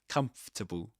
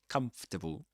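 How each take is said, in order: Both takes have the same delivery.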